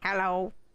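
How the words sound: It is said in a silly, put-on voice.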